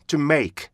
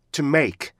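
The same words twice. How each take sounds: The two takes are said the same way.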